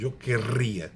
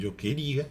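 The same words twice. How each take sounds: First: Querria with a strongly trilled rr; rolled double R. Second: Queria with one light tap of the R; single tapped R. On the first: Teacher contrasting verb forms, "querria" with a rolled rr. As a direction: roll the R long in "querria". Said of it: "há uma diferença entre". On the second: Teacher contrasting verb forms, "queria" with a single tapped R. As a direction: tap the R just once in "queria". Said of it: "se fosse com uma R". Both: Shown as a demonstration.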